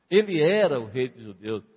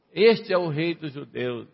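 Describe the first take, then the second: First: "era" leaned on, then falling lower; stress on "era". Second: Jeering proclamation, pointed on "Este"; ironic, offensive. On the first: Shown as a demonstration. Preacher affirms Jesus really was king, stressing "era". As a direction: affirm it firmly, hitting "era". Sincere correction of the mockers. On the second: Retold or imitated. Mockers labelling Jesus above his head, ironic and offensive. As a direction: sneer it as a mocking title. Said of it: "de uma forma irônica, de uma maneira ofensiva".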